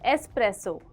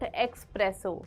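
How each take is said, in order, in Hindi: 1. यह 'es' ध्वनि से शुरू होता है, इसमें 'k' नहीं है। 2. यह 'ex' ध्वनि से शुरू होता है, इसमें 'k' है। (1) "there is no एक्स, it's an एस" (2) "not"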